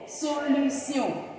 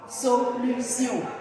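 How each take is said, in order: First: The ending sounds like 'see-on'. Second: The ending sounds like 'see-on'.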